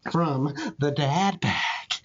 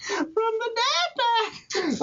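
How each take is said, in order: First: Said in the usual way. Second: "From the dad pack" said much higher and slow; "From the dad pack" lifted high and stretched slowly; high repeat. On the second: Shown as a demonstration. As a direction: pitch the whole phrase way up, drawn out. Punchline phrase repeated.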